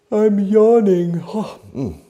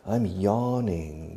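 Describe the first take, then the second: First: Said through a big, loud, high yawn; demonstrated yawn. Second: Said in the usual way. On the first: Shown as a demonstration. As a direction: yawn the words out, stretched and sleepy. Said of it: "I'm sleepy today".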